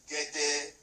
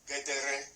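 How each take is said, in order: First: The r sound is left out of the word. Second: The r sound is pronounced in the word. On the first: The speaker calls it right. "is gẹ́dẹ́, a single and R with any any any vowel is silent" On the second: The speaker calls it wrong. "Not gẹ́dẹ́rẹ́"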